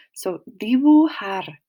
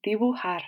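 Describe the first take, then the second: First: Dibujar with the j breathed out like an English h; Spanish j as h. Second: Dibujar whispered softly, j as a breathy h; whispered repeat. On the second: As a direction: whisper dibujar back to the class. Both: Shown as a demonstration. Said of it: "The J makes a h".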